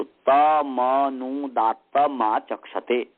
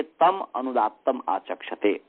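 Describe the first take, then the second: First: तमनुदात्तमाचक्षते as one joined word, drawn out slowly; words run together. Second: तम, अनुदात्तम, आचक्षते as three separate words; words split apart. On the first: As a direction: join तम to अनुदात्तम to आचक्षते, sounding ta-ma-nu. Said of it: "से जम करेंगे तो". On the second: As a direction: close तम on its m before starting अनुदात्तम. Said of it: "या पदच्छेद करके". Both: Shown as a demonstration.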